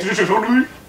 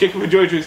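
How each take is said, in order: First: It is said at a slow, careful pace. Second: It is said quickly.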